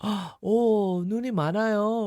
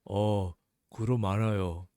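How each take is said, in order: First: It is said dramatically, with a gasp. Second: It is said calmly, without emotion.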